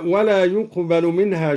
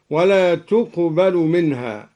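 First: Said in the usual way. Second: "تقبل" begun with a t, "tuqbalu"; feminine ta. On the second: Shown as a demonstration. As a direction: sound a clear t at the start of "تقبل" in place of y. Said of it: "بالتاء على التأنيث". ("تقبل" بالتاء على التأنيث)

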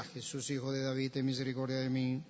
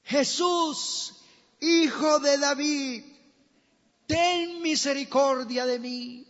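First: Soft, low and quick monotone; timid, half-hearted plea under the breath; meek mumbled plea. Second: Loud, high, drawn-out plea; crying out. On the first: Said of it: "¿Usted cree que decía así o decía". (súplica tímida en voz baja) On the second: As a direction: blind beggar shouting over a crowd for mercy. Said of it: "comenzó a dar voces y a decir". (gritando a voces) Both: Acted.

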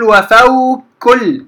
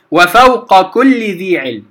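First: وفوق swallowed into كل as one doubled kaf, slow; wrong merging. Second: وفوق with its qaf fully said before كل; qaf kept clear. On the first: Teacher demonstrating to students the wrong merged وفوق كل. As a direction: merge the qaf of وفوق into كل, slowly. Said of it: "لا أقول ... خطأ". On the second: Teacher showing students the correct unmerged وفوق كل. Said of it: "امتنع الإدغام". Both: Shown as a demonstration.

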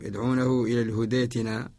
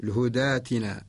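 First: الهدى tilted to hudee while joined to ائتنا; lower-pitched demo of الهدى with an e-coloured vowel; mistaken imala. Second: الهدى ائتنا joined as hudaatina, open long aa; correct Warsh reading. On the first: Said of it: "هذا خطأ". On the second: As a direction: keep the vowel of الهدى a pure alif, no e colour. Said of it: "وهو نقرأ له". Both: Shown as a demonstration.

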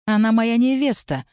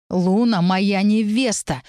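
First: Higher-pitched, firmly measured claim; crisply enunciated. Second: Slow, understated angry growl; growled claim. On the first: Mage stepping closer to claim his bride, crisply enunciated. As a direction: stamp out each word. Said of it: "отчеканил Каэль". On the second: Mage asserting his bride over the din of argument, growling. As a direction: growl it out word by word. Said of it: "прорычал Каэль". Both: A narrator's reading.

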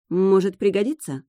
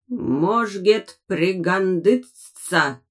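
First: Said in the usual way. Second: Very slow, creaking metal voice; creaky metallic voice. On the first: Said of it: "подумалось мне". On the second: A narrator's reading. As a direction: grind it out like a rusty machine. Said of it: "проскрипел металлический голос".

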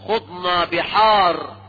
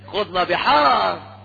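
First: Grave drawn-out quote of the boast; slow solemn quote. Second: Drawn-out sarcastic echo of the Sufi boast; slow mocking repeat. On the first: Retold or imitated. Preacher quotes the Sufi claim slowly, straight-faced. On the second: Preacher mocks the extreme Sufis' boast, slow and sarcastic. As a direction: stretch it out to ridicule it. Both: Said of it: "فغلاة المتصوفة يقولون".

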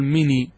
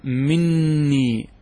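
First: "مني" with one short n, no doubling; single noon. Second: "مني" with a long, doubled n, drawn out; doubled noon. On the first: Teacher showing the dropped noon, "مني" with a single n. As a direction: lighten "مني" to a single n before the long i. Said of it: "وإذا نزعت النون تأتي بالياء فقط". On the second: Teacher showing students the merged noon, "مني" with a held double n. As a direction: hold the n in "مني" as a geminate, slowly. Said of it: "سيحصل إدغام مع تشديد". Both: Shown as a demonstration.

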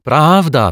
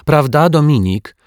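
First: High, loud, falling confirmation; boy's hasty, raised-voice assent; eager agreement. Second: High-pitched, louder coaxing question; girl's raised, insistent appeal; prompting girl. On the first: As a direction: agree at once, emphatically. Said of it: "przytaknął szybko Dominik". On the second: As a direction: prompt a friend to agree. Zuzia prompts Dominik to agree. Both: A narrator's reading.

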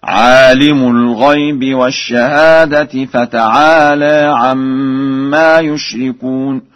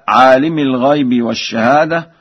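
First: Slow chant, عالم ending in -u; damma on mim. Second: Said in the usual way. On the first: Shown as a demonstration. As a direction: recite عالم with raf on the mim. (ترتيل برفع الميم في عالم) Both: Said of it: "برفع الميم هكذا".

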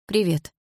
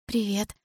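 First: Guarded greeting with a falling end; wary hello. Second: A soft, shy greeting, a little quieter; shy hello. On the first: The narrator warily answering Milana's greeting, guarded and cool. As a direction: answer cautiously, keeping her distance. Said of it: "настороженно ответила я". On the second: Milana shyly greeting the narrator, quiet and smiling. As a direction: greet her bashfully, smiling. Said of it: "смущённо улыбнулась она". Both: A narrator's reading.

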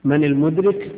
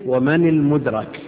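First: "المدرك" as al-mudrik, ending in -rik; "المدرك" pronounced mudrik, i in the last syllable; active participle form. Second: "المدرك" as al-mudrak, ending in -rak; "المدرك" pronounced mudrak, a in the last syllable; passive participle form. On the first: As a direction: put a kasra on the ra of "المدرك". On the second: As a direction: put a fatha on the ra of "المدرك". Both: Shown as a demonstration. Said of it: "في عندنا متقدم وفي متأخر".

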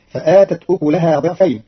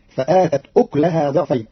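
First: Said in the usual way. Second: أكلها with silent kaf, ukleha; Qalun reading. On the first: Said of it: "quoted verse before the variant". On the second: Shown as a demonstration. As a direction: say أكلها as uklaha with no vowel on the k. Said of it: "فتصير".

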